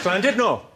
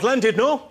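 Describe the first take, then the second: First: The word starts with a hissed, throaty L sound. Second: The word starts with a plain English L sound. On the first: The speaker calls it right. "In Wales, the double L is pronounced with a C" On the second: The speaker calls it wrong. "It's not Llandudno, you bloody fool"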